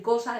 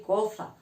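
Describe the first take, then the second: First: Said in the usual way. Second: "coza" with a th sound, co-tha; "coza" said with tongue between teeth, th for s; ceceo. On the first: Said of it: "en vez de decir cosa". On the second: Shown as a demonstration. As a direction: lisp the s of "coza" like the Andalusian ceceo. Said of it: "decir coza".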